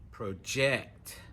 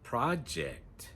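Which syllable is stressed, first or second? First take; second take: second; first. First: The stress is on the second syllable. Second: The stress is on the first syllable. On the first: It is a verb meaning to push out. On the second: It is a noun meaning a task to do.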